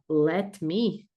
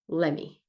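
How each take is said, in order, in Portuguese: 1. As duas palavras são ditas separadamente e com clareza. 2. As duas palavras são ditas juntas, formando uma só. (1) "Ao invés de você falar let me" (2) "você também pode falar let me"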